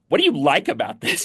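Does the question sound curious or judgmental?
judgmental. The question sounds disapproving and judgmental. The asker disapproves of the thing. The speaker calls it wrong. "Not with the tone of"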